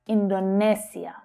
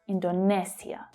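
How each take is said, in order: First: The third syllable has an s sound. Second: The same.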